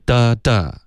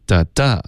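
First: 的的 as "DA DA", both beats strong; equal stress pattern. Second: 的的 as "da DA", weight on the second; second-beat stress pattern. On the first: Teacher showing indoor's rhythm, two even beats. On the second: Teacher showing endure's rhythm, stress on second beat. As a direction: tap out 的的 light then strong. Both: Shown as a demonstration. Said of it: "所以重音上有区别".

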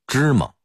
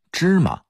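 First: 芝麻 in Beijing dialect, high first syllable, reduced second vowel; Beijing local pronunciation. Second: 芝麻 in careful Putonghua, ma with a clear a; standard Mandarin pronunciation. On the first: Lecturer shows the local sound, 芝麻 with a muffled second syllable. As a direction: say 芝麻 like a Beijinger, last vowel swallowed. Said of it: "按北京土音儿要说成". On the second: Lecturer gives the standard reading, 芝麻 with a clear ma. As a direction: say 芝麻 the textbook Putonghua way. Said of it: "普通话应该念芝麻". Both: Shown as a demonstration.

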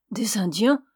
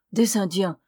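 First: Startled question rising at the end; "Des Indiens?" asked in mild surprise, rising; surprised cry. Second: "Des Indiens!" as a mild exclamation, falling; a light dismayed outburst; exclaiming. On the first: Mother reacts in surprise to learning they're Indians. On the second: Mother exclaims in dismay at the strangers. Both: A narrator's reading. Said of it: "s'écria la femme".

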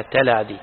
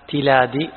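First: تلادي said as "talādī", short a after t; fatha on the tā'. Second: تلادي said as "tilādī", short i after t; kasra on the tā'. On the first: Teacher giving the other vowel option, تلادي voiced as "talādī". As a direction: open تلادي with "ta", not "ti". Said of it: "أو بفتحها". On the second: Teacher relaying a student's question on vowels, تلادي voiced as "tilādī". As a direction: open تلادي with "ti", not "ta". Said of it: "هل هو بكسر التاء". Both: Shown as a demonstration.

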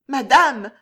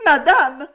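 First: Higher, louder, quavering call; trembling voice. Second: Much higher, loud sobbing call; sobbed. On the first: Maid Juliette calling Jeanne, voice trembling. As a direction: falter as you call her mistress. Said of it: "d'une voix tremblante". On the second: Kneeling maid sobbing to her mistress. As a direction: sob it out on your knees. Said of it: "sanglota Juliette". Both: A narrator's reading.

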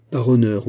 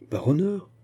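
First: "Par honneur" stated loudly, falling at the end; emphatic assurance. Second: "Par honneur" high, rising sharply at the end; questioning echo. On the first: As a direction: give "Par honneur" as a firm, forceful pledge. Musketeer gives his word. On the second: Echoes the pledge as question. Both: A narrator's reading.

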